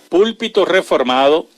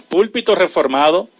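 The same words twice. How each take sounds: Both takes have the same delivery.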